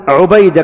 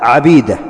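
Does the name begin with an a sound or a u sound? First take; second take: u sound; a sound. First: The name begins with a u sound. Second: The name begins with an a sound. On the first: This is the common form of the name. The speaker calls it wrong. "ما تقول عبيدة كما هو الأصل" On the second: This is the name of the narrator from Ali. The speaker calls it right. "لا عبيدة"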